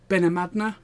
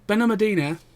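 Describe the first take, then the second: First: The name is said the local Spanish way. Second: The name is said the English visitors' way. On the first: This is how the locals say it. "apparently the locals pronounce it" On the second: This is how the visitors say it. "as we pronounce it"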